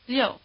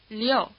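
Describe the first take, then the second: First: The word is said quickly as one syllable. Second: The word is said as two syllables. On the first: "speed it up and say it as one syllable with only a trace of the E sound" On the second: "shift the stress over onto the O"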